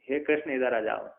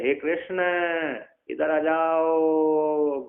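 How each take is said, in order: First: The call is said plainly with short vowels. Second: The call has very long drawn-out vowels. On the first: The person being called is nearby. "नजदीक को बुलाने पर" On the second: The person being called is very far away. "एक kilometre दूर बुलाना है"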